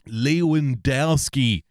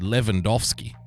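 First: The w is said as an English w. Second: The w is said as a v sound. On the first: The speaker calls it wrong. "if you say the W's as W's, that's a big faux pas" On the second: The speaker calls it right. "it's supposed to be"

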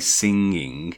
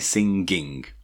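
First: Southern English accent, ending in a nasal ng. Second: Northern English accent, with the final g sounded. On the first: "southerners will say singing" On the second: "northerners will say singing"

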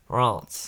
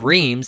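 First: It is nasal, with no M sound. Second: It is read as spelled, with an M sound. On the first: The speaker calls it right. "it's pronounced Reims. ... It's very nasally sound. ... There's not even an M in it" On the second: The speaker calls it wrong. "Even though it's spelled Reims"

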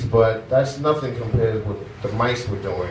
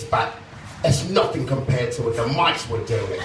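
First: It is spoken in an ordinary American accent. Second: It is spoken in a put-on British accent.

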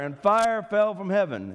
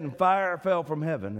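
First: It is said a little louder. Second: It is said at normal volume.

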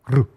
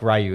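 First: The name is said the Japanese way. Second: The name is said the American way. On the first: The speaker calls it right. "In Japan, it's actually" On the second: The speaker calls it wrong. "it's not like Ryu"

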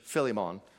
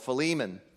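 First: It is said in a British accent. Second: It is said in an American accent.

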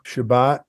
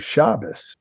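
First: It ends with a T sound. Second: It ends with an O-S sound.

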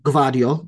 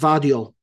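First: The name begins with a hard G sound. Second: The name begins with a V sound. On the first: The speaker calls it wrong. "I was calling him Gvardiol" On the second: The speaker calls it right. "it's a silent G and it's Vardiol"

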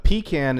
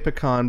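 First: The first syllable sounds like 'pee'. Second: The first syllable does not sound like 'pee'. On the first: "A pecan is something you take on a camping trip. It is usually a Folgers can. That you pee into" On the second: "I say pecan because I'm more cultured than you"

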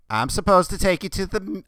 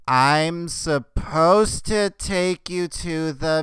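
First: The phrase is spoken at a fast pace. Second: The phrase is spoken at a slow pace.

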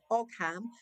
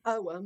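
First: The g sound is pronounced in the middle. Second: The g sound is silent in the middle. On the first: The speaker calls it wrong. "It's spelled O-G-H-A-M, like Ogham" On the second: The speaker calls it right. "but you pronounce it Oham"

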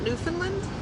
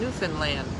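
First: The word ends without rhyming with understand. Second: The word ends rhyming with understand. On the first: The speaker calls it wrong. "not Newfoundland? I've been saying it wrong the whole time" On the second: The speaker calls it right. "Say, understand Newfoundland. That's how you say it"

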